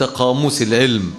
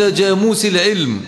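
First: The first word begins with a q sound. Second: The first word begins with a j sound. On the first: The speaker calls it right. "يقصدون أنت قاموس العلم" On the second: The speaker calls it wrong. "هذه اللهجة يجعل فيها القاف جيما"

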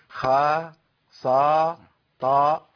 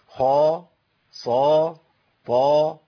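First: The letters are light, without rounded lips. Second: The letters are heavy, with slightly rounded lips. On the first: The speaker calls it wrong. "ما ينفعش اقول" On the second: The speaker calls it right. "التفخيم ياتي بهيئه تبويزه بسيطه"

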